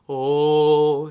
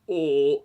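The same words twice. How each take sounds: First: The voice sounds easy and relaxed. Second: The voice sounds pressed down and forced. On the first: The speaker calls it right. "It's just oh. So it's a very relaxed tone" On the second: The speaker calls it wrong. "the larynx isn't forcibly pushed down like oh"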